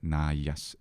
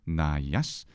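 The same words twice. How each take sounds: First: The accent is a Latin stress accent. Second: The accent is a Greek pitch accent. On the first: "So we would just say naias in Latin" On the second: "but it's naias in ancient Greek"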